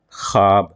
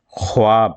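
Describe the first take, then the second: First: خواب said "khaab", waw silent; as read. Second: خواب said "khwaab", with the w sounded; as written. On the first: Teacher showing students how the word is read, waw silent. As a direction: drop the w from خواب, giving "khaab". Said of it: "لیکن پڑھا گیا". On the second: Teacher showing students how the word is spelt, waw sounded. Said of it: "حالانکہ لکھا گیا ہے". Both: Shown as a demonstration.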